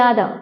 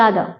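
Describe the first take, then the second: The two takes are said the same way.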